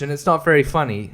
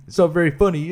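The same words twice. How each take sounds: First: Said in the usual way. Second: Amused, laughing repeat. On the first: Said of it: "It's not very funny, is it?". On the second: Real, not acted. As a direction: repeat it quicker through a laugh.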